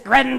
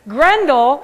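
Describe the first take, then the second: First: The word is said with a rough growl. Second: The word is said in a plain voice. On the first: The speaker calls it right. "She says you have to growl it out" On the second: The speaker calls it wrong. "I don't say it correctly"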